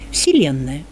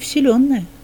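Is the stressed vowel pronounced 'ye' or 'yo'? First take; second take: ye; yo. First: The stressed vowel is pronounced 'ye'. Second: The stressed vowel is pronounced 'yo'. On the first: This is the Church Slavonic form. "«вселенная» – церковно-славянизм" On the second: This is the native Russian form. "По-русски было бы"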